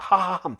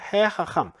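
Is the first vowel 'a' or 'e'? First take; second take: a; e. First: The first vowel is an 'a' sound. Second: The first vowel is an 'e' sound. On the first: Repeating the same throat sounds is hard to say. The speaker calls it wrong. "하하함 이렇게 발음하기 어렵다는 거예요" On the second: Changing the vowel makes it easier to say. The speaker calls it right. "발음을 편안하게 해주는"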